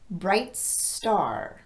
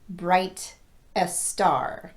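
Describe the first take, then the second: First: Bright runs straight into the s sound. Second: An extra vowel sound comes before the s. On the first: The speaker calls it right. "I'm going right from the word bright into this sound" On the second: The speaker calls it wrong. "not bright a star"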